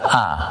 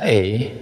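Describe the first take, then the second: First: The letter is said as an open 'ah'. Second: The letter is said as a gliding 'ay'. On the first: This is how the letter is named in Indonesian. "Dalam bahasa Indonesia, A dibaca A" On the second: This is how the letter is named in English. "Dalam bahasa Inggris, A dibaca E dalam abjadnya"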